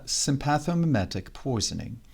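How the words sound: It is said imitating the professor's English accent.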